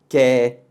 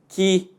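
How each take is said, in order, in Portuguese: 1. A vogal soa como um 'e' aberto. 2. A vogal soa como um 'i'. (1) "o primeiro quer vai ter som de é" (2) "o último vai ter som de i"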